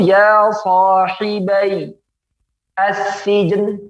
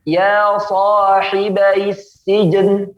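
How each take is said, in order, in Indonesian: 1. Kata-kata itu diucapkan terpisah tanpa penyambungan. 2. Kata-kata itu digabung dengan vokal penghubung.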